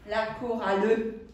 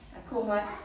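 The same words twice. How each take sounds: First: The word ending is exaggerated, sounding the final L. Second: The word ending is said normally, not drawn out.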